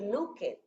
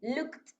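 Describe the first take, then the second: First: The ending is not said as a t sound. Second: The ending is said as a t sound. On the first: The speaker calls it wrong. "no va a decir looked" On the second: The speaker calls it right. "va a decir looked, la E D la vamos a pronunciar como una T"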